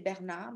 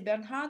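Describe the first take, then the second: First: The H in the middle is silent. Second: The H in the middle is pronounced. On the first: This is the French way of saying it. "in French we say Bernard because we don't pronounce the H" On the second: This is the English way of saying it. "in English you say Bernhard"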